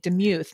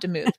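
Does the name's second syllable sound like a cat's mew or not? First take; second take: like mew; not mew. First: The second syllable sounds like a cat's mew. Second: The second syllable does not sound like mew. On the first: The speaker calls it right. "I said your last name wrong at the very beginning" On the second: The speaker calls it wrong.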